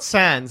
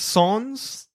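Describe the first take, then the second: First: It is said with an English-style vowel. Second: It is said with a French-style vowel. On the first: The speaker calls it wrong. "It's not Sans" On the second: The speaker calls it right. "It's Sons. ... that's the French version"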